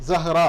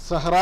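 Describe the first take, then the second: No difference in how they are said.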